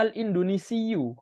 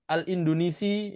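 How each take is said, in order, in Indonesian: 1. Kata ini berakhir dengan bunyi 'iyyu' ganda. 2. Kata ini berakhir dengan 'i' pendek biasa. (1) "ya harusnya ... pakai tasdid" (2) "Jadi kalau kita baca"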